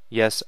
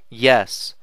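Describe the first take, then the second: First: It is said in a croaky voice. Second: It is said in a clear, confident voice.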